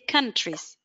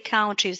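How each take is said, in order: First: The first vowel sounds like 'ah'. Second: The first vowel sounds like 'ow'. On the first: The speaker calls it right. "it's an ah" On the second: The speaker calls it wrong. "it is not an ow"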